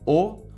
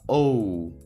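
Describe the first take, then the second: First: The letter is named with its Portuguese sound. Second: The letter is named with its English sound. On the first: "No português a gente fala O ou O" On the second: "no inglês a gente fala O"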